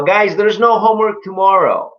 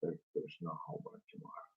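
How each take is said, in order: First: High, raised classroom announcement; teacher announcing. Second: Whispered echo of the teacher; student repeating. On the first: Acted. Teacher tells the class about homework, high announcing voice. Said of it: "the teacher says". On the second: Shown as a demonstration. Student repeats what the teacher said, quick whisper. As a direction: repeat it quickly under your breath, whispered. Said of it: "You go".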